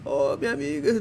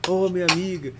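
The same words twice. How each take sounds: First: It is read expressively, acting the scene. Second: It is read flatly, without acting.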